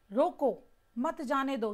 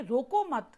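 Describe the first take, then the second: First: रोको set off alone, then मत जाने दो together; pause after रोको. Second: रोको मत joined with no break, then a stop; pause after मत. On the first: Teacher contrasting two sentences for students, pause after रोको. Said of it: "पहले वाक्य में". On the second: Teacher giving the contrasting sentence, रोको मत as one unit. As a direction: run रोको straight into मत, closing on मत. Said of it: "दूसरे वाक्य में". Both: Shown as a demonstration.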